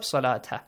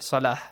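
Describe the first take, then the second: First: The word ends with a full 'ta' syllable. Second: The word ends with a short 'ah' sound. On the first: The reader continues without pausing. "If you do not stop" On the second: The reader pauses after this word. "If you stop here"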